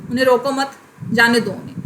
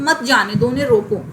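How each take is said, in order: First: "उन्हें रोको मत" rising, pause, then "जाने दो उन्हें" falling; pause after मत. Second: "मत जाने दो" as one phrase, then "उन्हें रोको" falling; group "मत" with "जाने दो", then add "उन्हें रोको"; comma phrasing. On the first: Teacher explaining the moved comma, pause after "रोको मत". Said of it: "फिर कॉमा लग गया". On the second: Teacher explaining the comma to students, "मत जाने दो" grouped together. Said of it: "comma लगाया तो उसमें". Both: Shown as a demonstration.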